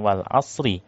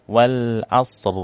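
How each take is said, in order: First: "wal asri" ending on a short i; wrong pausal form. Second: "wal asr" stopped on a silent r, no vowel; "wal asr" cut off after the r; correct pausal form. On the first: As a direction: say "wal asri" with the final i kept. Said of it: "harusnya bukan". (bacaan salah "wal asri" dengan vokal i di akhir) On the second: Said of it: "wakaf harusnya bukan ... tapi". ("wal asr" dibaca sukun di akhir) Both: Shown as a demonstration.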